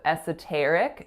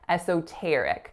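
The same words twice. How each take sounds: First: The second syllable has a very short schwa vowel. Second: The second syllable has a clear O vowel. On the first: "a really, really short schwa sound" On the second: "with an O sound on that second syllable"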